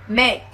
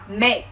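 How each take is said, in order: First: The final k is released with a puff. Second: The same.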